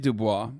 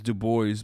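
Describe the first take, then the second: First: The name is pronounced the French way. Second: The name is pronounced the American way. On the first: "it is Dubois, um, technically" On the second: "in America, you read it as Du Bois"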